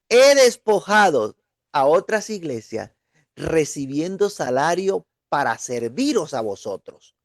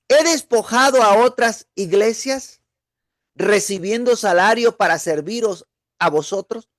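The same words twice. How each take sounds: First: It is said with statement intonation. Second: It is said with question intonation.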